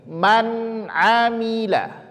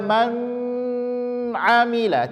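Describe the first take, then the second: First: The n is clear with no nasal hum. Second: The n is held with a nasal hum. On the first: The speaker calls it right. "tapi man amila, izhar dia" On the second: The speaker calls it wrong. "tidak boleh dibaca man amila"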